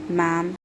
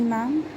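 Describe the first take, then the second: First: "ma'am" leaned on with pointed weight; stress on ma'am. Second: "ma'am" lifted high on a mocking rise; sarcastic ma'am. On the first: Annoyed boss hitting the word "ma'am" at her. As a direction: lean hard on "ma'am". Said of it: "He emphasized the word ma'am". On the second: Secretary throwing "ma'am" back at his boss, sarcastic rise. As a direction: toss "ma'am" up as a jab. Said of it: "spoke with sarcasm laced in his tone". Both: A narrator's reading.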